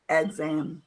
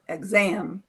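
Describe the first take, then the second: First: The stress is on the first syllable. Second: The stress is on the second syllable. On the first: The speaker calls it wrong. "not exam" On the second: The speaker calls it right. "but exam, second syllable"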